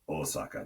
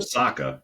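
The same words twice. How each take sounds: First: All syllables of Osaka are evenly flat. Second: One syllable of Osaka is stressed. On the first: The speaker calls it right. "it's Osaka, Japan" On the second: The speaker calls it wrong. "It's not"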